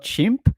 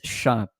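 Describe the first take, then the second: First: The 'im' sounds English-style. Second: The 'im' sounds French-style. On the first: The speaker calls it wrong. "it's not chimp" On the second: The speaker calls it right. "it's chimp"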